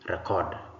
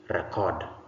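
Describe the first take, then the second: Both takes have the same delivery.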